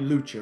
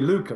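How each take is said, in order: First: The middle consonant is a 'ch' sound. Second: The middle consonant is a 'k' sound. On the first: The speaker calls it wrong. "It can't be Lucha" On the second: The speaker calls it right. "it should be Luca"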